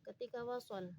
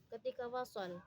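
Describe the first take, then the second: The two takes are said the same way.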